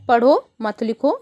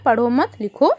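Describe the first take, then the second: First: पढ़ो set apart, then मत लिखो together; pause after पढ़ो. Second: पढ़ो मत together, then लिखो set apart; pause after मत. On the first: Teacher shows children the "read, don't write" meaning, pause after पढ़ो. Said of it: "यानी पढ़ो लिखो मत". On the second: Teacher shows children the opposite meaning, pause after मत. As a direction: break after मत, before लिखो. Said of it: "यहाँ पे क्या, क्या लिखा है". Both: Shown as a demonstration.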